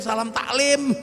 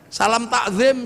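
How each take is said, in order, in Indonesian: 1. 'Takzim' punya bunyi l sebelum akhiran. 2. 'Takzim' punya bunyi z sebelum akhiran.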